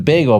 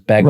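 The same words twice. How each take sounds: First: The first vowel sounds like 'bay'. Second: The first vowel sounds like 'beg'. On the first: "It's a bagel" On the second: "there's B E G E L, which is how some people pronounce it"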